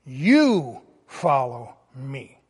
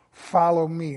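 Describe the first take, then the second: First: Slow, with You leaned on hard and low; stress on YOU. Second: Said in the usual way. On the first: Shown as a demonstration. Pastor quoting Jesus to Peter, You stressed slowly. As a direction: hit You firmly, then let follow me fall. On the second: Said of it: "this time he added the word".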